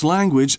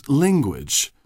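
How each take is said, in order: First: Said in the usual way. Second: "linguage" with an i in the first syllable; Italian-influenced mispronunciation. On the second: Shown as a demonstration. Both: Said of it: "pronounce language as linguage".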